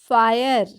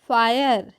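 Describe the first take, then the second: The two takes are said the same way.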